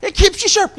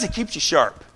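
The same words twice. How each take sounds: First: Much higher yell; preacher yelling the point; yelled take. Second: Quietly explaining; quiet take. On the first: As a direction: shout it out. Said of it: "I'm yelling here". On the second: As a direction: say it calmly. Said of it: "You don't have to yell like me". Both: Shown as a demonstration.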